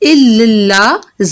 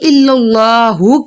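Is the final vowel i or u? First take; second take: i; u. First: The word ends with an i vowel. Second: The word ends with an u vowel. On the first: The speaker calls it wrong. "इल्लल्लाह ज़ेर के साथ अदा कर देते हैं" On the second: The speaker calls it right. "इल्लल्लाहु के बजाय"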